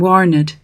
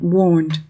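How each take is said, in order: First: The ending is said as a separate syllable. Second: The ending is said with no vowel sound. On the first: The speaker calls it right. "should be pronounced as a syllable" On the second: The speaker calls it wrong.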